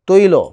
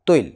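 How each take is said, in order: First: The word ends with a drawn-out 'o' vowel. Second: The word ends on a bare consonant. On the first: "তৈল ওকারান্ত আসলো" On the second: "হসন্ত ধ্বনি এসে শেষ হয়ে গেছে"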